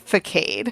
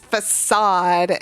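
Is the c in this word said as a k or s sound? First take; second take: k sound; s sound. First: The c is said as a k sound. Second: The c is said as an s sound. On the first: It is treated as a name from a video game. "it's not that C, it's a normal C" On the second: It is treated as a French word. "it's facade and it's French"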